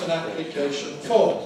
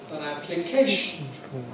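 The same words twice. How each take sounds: First: The stress falls on form. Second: The stress falls on application. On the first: The speaker calls it wrong. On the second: The speaker calls it right.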